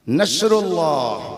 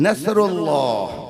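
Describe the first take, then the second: Both takes have the same delivery.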